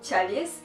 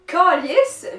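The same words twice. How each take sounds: First: It is said with the standard church-word pronunciation. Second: It is said with the Quebec swear-word pronunciation. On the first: It names the religious cup. "qui est un objet de la religion catholique" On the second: It is used as a swear word. "Calice vient du mot calice"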